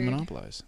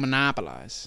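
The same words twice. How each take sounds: First: The word has ordinary, even stress. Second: One part is stretched out with unusual stress. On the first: This is how most people say it. The speaker calls it right. "How do people usually say that word? You say monopolize" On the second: This is how the friend says it. The speaker calls it wrong. "But you go monopolize"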